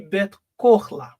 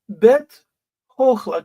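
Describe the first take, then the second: First: The second word begins with a K sound. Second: The second word begins with an H sound.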